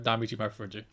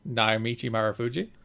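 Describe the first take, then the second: First: The name is said quickly and run together. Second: The name is said slowly and clearly. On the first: The speaker calls it wrong. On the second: The speaker calls it right.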